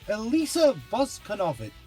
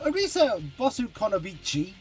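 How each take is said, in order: First: The name is said with English-style sounds. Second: The name is said with Japanese-style sounds. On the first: "I'm mispronouncing because I struggle to say Boskonovich consistently with my accent" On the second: "as the Japanese refer to them"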